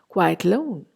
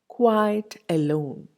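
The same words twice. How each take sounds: First: The first vowel of alone is dropped. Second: The first vowel of alone is fully pronounced.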